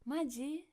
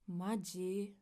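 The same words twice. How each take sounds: First: It is said in an excited, lively tone. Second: It is said in an annoyed, irritated tone. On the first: The speaker is thrilled and asks whether it is really true. "we used maji in an excited way" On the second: The speaker is irritated that this is really happening. "if you say it in a different tone, it can express a different emotion"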